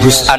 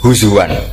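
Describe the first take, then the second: First: The word has a glottal stop in the middle. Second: The glottal stop is replaced by a w sound. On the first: "ketika jadi hus'an ini hamzah" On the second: "ditakhul jadi wawu huzuan"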